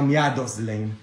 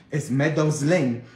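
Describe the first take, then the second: First: Slow, low "Miados Lane"; mispronunciation. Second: Slow, careful "Meadows Lane"; correct pronunciation. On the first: Priest showing the wrong street name, "Miados" as mia-dos. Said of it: "Es Meadows Lane, no". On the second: Priest correcting the street name, "Meadows" said carefully. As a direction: say "Meadows" slowly with an English e at the start. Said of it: "no Miados Lane". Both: Shown as a demonstration.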